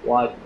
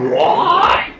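First: The voice is flat with no pitch variation. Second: The voice is expressive with varied pitch.

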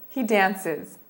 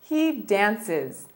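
Both takes have the same delivery.

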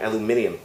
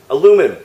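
First: The word has five syllables, with an extra ee-sound. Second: The word has four syllables, with no extra ee-sound. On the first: This is the British form of the word. "A special apology to all my UK subscribers. I can't say aluminium" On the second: This is the American form of the word. "I gotta say aluminum"

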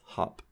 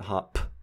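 First: The final p is released with no puff of air. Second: The final p is released with a strong puff of air. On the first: The speaker calls it right. "it's hop" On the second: The speaker calls it wrong. "It's not hop"

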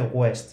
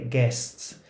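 First: The u is pronounced as a w sound. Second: The u is silent after a hard g. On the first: The speaker calls it wrong. "con U y no se dice West" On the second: The speaker calls it right. "se dice guests"

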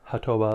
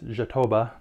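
First: It is said with a Spanish pronunciation. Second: It is said with a Portuguese pronunciation. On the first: The speaker calls it wrong. "not jatoba, like if it were Spanish" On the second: The speaker calls it right. "I actually do know how that's pronounced because I speak some Portuguese. It's jatoba"

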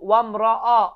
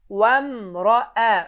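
First: The vowel after the r sounds heavy and dark. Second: The vowel after the r sounds light and thin. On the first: The speaker calls it wrong. "ra hərfindən sonra gələn hərfi də qalınlaşdıraraq ... bu cür tələffüz düzgün deyil" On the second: The speaker calls it right. "Düzgün tələffüz vamraə"

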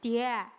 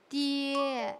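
First: It is said with a Shaanbei dialect accent. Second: It is said in standard Mandarin pronunciation. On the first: "我们就说爹爹" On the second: "但是普通话是爹"

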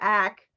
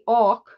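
First: The syllable has a flat 'a' vowel. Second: The syllable has an open 'aw' vowel. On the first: "as opposed to ack" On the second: "They pronounce the A-C, awk"

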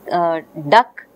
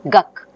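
First: The word begins with a d sound. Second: The word begins with a g sound. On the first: This is the adult form of the word. The speaker calls it right. "duck is becoming guck" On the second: The first sound copies the later back sound, as a child does. The speaker calls it wrong. "because both ga and ka are of the same place"

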